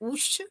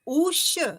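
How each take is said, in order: First: The vowel is held for one short beat. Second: The vowel is held for two beats. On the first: "एक मात्रिक उकार" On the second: "द्विमात्रिक उकार"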